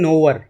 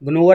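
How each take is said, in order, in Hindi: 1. शब्द की शुरुआत 'n' की आवाज़ से होती है। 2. शब्द की शुरुआत 'g' की आवाज़ से होती है। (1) "इसे बोलते हैं नोवर" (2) "नहीं बोलना, जी साइलेंट रहता था"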